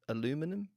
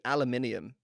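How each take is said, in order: First: The word is said with four syllables. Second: The word is said with five syllables. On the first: This is how the other person's group says it. "and you say, what? Aluminum?" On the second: This is how the speaker's own group says it. "we say aluminium"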